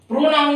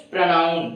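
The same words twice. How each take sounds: First: प्रोनाउन with a full "pro", pitched high; प्रोनाउन with a round O in the first syllable; wrong pronunciation demo. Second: प्रोनाउन with a short first vowel, "pra-naun"; correct pronunciation demo. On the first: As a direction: say प्रोनाउन as "proh-naun", raised. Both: Shown as a demonstration. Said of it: "प्रोनाउन नहीं".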